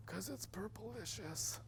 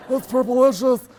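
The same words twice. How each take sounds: First: Put-on high, soft, slow little-girl voice; imitating daughter. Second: Put-on high, loud, slow nerdy teen drawl; Napoleon Dynamite impression. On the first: Father quoting his kindergarten daughter, high soft slow child voice. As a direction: draw it out like a small child savoring the word. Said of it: "this is exactly how she said it". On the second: Dad comparing daughter's word to a movie, loud high slow drawl. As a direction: stretch it out like a deadpan awkward teen. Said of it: "Is that Napoleon Dynamite right there".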